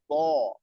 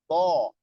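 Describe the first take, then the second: Both takes have the same delivery.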